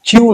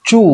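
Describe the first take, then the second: First: The vowel has a y glide, like yoo. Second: The vowel is a plain long oo. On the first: The speaker calls it wrong. "চিউ নয়" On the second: The speaker calls it right.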